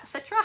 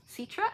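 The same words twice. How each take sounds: First: Citra said as SET-ra, short e, rising; retrying Citra as SET-ra; second pronunciation try. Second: Citra said as SEE-tra, rising like a question; testing Citra as SEE-tra; trying a pronunciation. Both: Shown as a demonstration. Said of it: "However you say her name".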